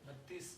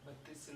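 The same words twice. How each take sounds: Both takes have the same delivery.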